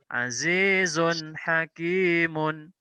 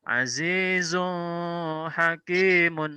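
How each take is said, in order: First: The n sound is short, clear and direct. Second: The n sound is held longer, not crisp. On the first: The speaker calls it right. "Yang betul azizun hakimun" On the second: The speaker calls it wrong. "Salah kalau dibaca azizun hakimun"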